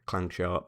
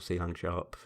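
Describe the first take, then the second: First: The first word is said as one syllable. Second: The letter C is said separately before Lang. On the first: "whatever you prefer to pronounce it" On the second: "whatever you prefer to pronounce it"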